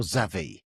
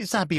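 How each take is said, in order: First: Xavi said ZAV-ee, with a V; pronounced with a V. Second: Xabi said ZAB-ee, with a B; pronounced with a B. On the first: Host offering the other option, Xavi with a V. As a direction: make the middle of Xavi a V. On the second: Host asking which name is right, Xabi with a B. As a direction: hit a clear B in Xabi. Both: Shown as a demonstration. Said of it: "Is it Xabi or Xavi".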